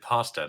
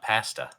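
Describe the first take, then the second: First: The word is said with an American pronunciation. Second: The word is said with a Canadian pronunciation.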